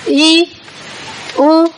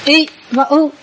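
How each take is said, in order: First: I and U each held long; long Pali I and U; long vowels. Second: I and U each cut short; short Pali I and U; short vowels. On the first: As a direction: stretch I and U, pausing between them. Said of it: "Năm nguyên âm dài". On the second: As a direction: say I and U as brief, stopped vowels. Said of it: "ba nguyên âm ngắn". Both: Shown as a demonstration.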